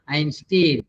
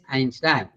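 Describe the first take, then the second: First: The second syllable has a different vowel. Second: Both syllables share the same vowel sound. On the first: The speaker calls it wrong. "I have heard many saying Einstein" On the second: The speaker calls it right. "Both Ein, Ein"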